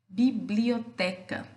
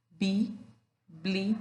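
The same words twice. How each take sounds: First: Said in the usual way. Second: Bi... bli... o... te... ca, slowly separated; teacher dividing Bi-bli-o-te-ca with pauses; syllable by syllable. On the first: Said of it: "a gente pode falar da palavra". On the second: Shown as a demonstration. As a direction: break Bi-bli-o-te-ca into five distinct beats. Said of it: "Então, vamos separar".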